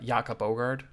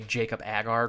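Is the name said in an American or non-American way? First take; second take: non-American; American. First: The name is said in a non-American way. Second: The name is said in an American way. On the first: It is an attempt at the original pronunciation. "or however you say his name" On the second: It is how Americans would say it. "Americans would, would say"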